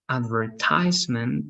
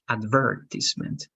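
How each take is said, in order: First: The third syllable has an 'eye' vowel. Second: Stressed on 'ver', with a short 'i' vowel. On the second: "and British"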